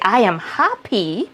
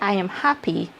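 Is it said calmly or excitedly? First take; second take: excitedly; calmly. First: It is said excitedly with strong emotion. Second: It is said calmly and plainly.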